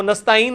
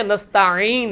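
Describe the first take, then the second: First: نستعین said quickly with no throaty ain; flat everyday نستعین, ain replaced by hamza; mistaken hamza. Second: نستعین slow, with ع squeezed from the throat; correct throaty ain. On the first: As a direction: glide through نستعین with a plain vowel for ع. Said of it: "وہ نستعین نہیں ہے". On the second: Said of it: "عین ہے". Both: Shown as a demonstration.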